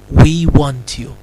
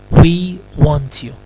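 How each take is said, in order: Both takes have the same delivery.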